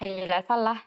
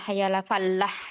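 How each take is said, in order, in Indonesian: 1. Huruf L dalam falah dibaca pendek, tunggal. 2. Huruf L dalam falah dibaca panjang, dobel.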